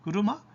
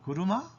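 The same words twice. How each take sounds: Both takes have the same delivery.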